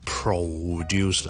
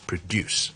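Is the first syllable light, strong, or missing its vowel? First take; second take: strong; light. First: The first syllable is said strongly with a full vowel. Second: The first syllable is light and the second strong. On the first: The speaker calls it wrong. "前面咧我就唔需要太强地produce啦" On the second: The speaker calls it right. "将后面个音节咧再读得强啲，前面嗰个再读得轻啲。"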